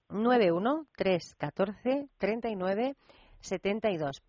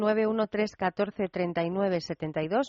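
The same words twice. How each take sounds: First: The number is said slowly. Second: The number is said at normal speed.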